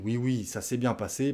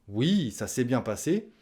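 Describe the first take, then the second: First: It sounds annoyed and dismissive. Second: It sounds genuinely pleased.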